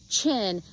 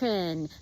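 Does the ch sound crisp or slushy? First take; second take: crisp; slushy. First: The ch sound is sharp and crisp. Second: The ch sound is wet and slushy.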